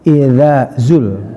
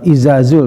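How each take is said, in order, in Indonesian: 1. Huruf pertama itu bunyi seperti th. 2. Huruf pertama itu bunyi z biasa. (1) "tapi idzazul" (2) "bukan izazul"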